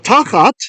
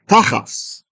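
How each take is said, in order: First: The word ends with a t sound. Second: The word ends with an s sound.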